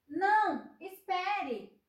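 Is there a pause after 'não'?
yes. There is a pause after não.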